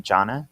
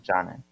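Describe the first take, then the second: First: Jana asked with a rising, questioning tune; unsure pronunciation. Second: Jana repeated with a soft zh sound at the start; corrected pronunciation. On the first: Asking a co-host how to say the name Jana. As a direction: tries out Jana uncertainly, like a question. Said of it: "uh, how do you say it?". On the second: Repeating the name Jana after being corrected. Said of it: "Jana, yeah". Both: Real, not acted.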